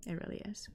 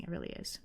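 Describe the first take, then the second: First: Said in the usual way. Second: "It really is" whispered, breathy and very soft; a hushed "It really is" to herself; whispered aside. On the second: Real, not acted. Whispered repeat of own point.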